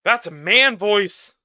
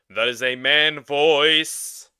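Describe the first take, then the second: First: Loud, high, drawn-out MAN in "man voice"; startled exclamation. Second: Slow, loud "That is a man voice", word by word; emphatic insistence. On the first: Exclaiming at a character's voice. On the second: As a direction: insist loudly, stretching out "voice". Repeats the exclamation more emphatically. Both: Real, not acted.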